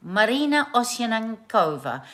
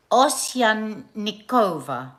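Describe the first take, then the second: First: Said in the usual way. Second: Osyanikova spelled out slowly, syllable by syllable; careful Russian name. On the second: Shown as a demonstration. Host carefully sounding out a Russian name. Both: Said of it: "I've messed that up".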